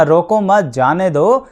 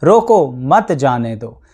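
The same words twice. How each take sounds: First: रोको मत joined, then जाने दो lifting at दो; group it as "don't stop him, let him go"; pause after मत. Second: Lower, slow रोको, pause, then मत जाने दो; a deliberate "stop, don't let him go", split after रोको. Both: Shown as a demonstration. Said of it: "आप कहाँ चुप हुए और कहाँ पर आपने".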